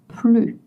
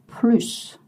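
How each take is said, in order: First: The final S sound is silent. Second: The final S sound is clearly pronounced. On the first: It means no more or no longer. "you don't pronounce the S when the idea is no more" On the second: It means more. "you voice the S just like the S in seven"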